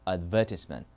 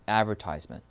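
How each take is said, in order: First: It is said with a British accent. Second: It is said with an American accent. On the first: "영국은요?" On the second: "미국은요?"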